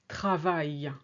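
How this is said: It is said with a fuller French A. The speaker calls it right. "rather than"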